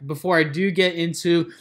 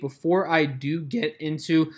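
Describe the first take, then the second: First: Said in the usual way. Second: Real voice crack mid-phrase. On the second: Real, not acted. Host previewing today's trades to viewers, voice cracking. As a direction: let the voice crack by accident. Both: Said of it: "voice crack".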